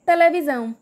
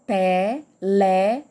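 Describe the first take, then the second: First: Said in the usual way. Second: "Televisão" slowly split as te, le, vi, são; four separate beats in "Televisão", lower; syllable by syllable. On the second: Shown as a demonstration. Teacher separating the word with everyone, "Televisão" said in separated syllables. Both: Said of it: "pra separar essa palavra".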